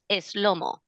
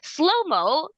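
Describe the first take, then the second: First: It is said with a Spanish accent. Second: It is said with an English accent.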